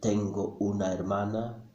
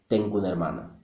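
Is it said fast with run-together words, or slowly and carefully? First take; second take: slowly; fast. First: It is said slowly, every vowel pronounced separately. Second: It is said fast, with vowels run together.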